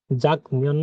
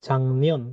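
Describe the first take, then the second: First: "যাক নিয়ন" with a hard k before n; unchanged pronunciation. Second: "চাংনিয়ন" with ng in place of k; nasalised pronunciation. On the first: Teacher quizzing learners on the written form, unchanged pronunciation. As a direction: keep the k stop in "যাক নিয়ন". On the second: Teacher answering her question for learners, nasalised pronunciation. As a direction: glide from ng into n in "চাংনিয়ন". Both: Shown as a demonstration. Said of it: "না হয়ে কি হবে".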